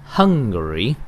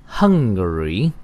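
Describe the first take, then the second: The two takes are said the same way.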